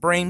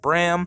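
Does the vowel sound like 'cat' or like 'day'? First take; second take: day; cat. First: The vowel sounds like the 'a' in 'day'. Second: The vowel sounds like the 'a' in 'cat'. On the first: "Some people pronounce it Brame" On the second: "Some people pronounce it Bram"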